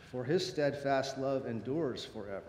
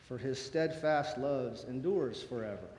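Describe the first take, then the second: No difference in how they are said.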